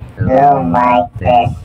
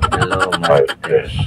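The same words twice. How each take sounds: First: The voice is processed with a goddess effect. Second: The voice is processed with an uncle effect. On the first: "Goddess sound effect" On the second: "Uncle sound effect"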